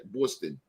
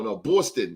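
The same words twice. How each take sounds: First: Boston said the Boston way, soft and low; Boston with a light Boston accent; mock Boston accent. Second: Said in the usual way. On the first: Host teasing how Boston folks say Boston, light Boston accent. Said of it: "They talk funny in Boston". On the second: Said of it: "as they say, Boston".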